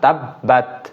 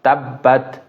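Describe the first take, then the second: Both takes have the same delivery.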